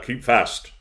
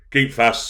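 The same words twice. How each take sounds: First: Repeated shout, a bit less loud. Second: Loud servant's shout. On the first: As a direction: bark the order a second time. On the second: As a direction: call it out hard to the dog. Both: A narrator's reading.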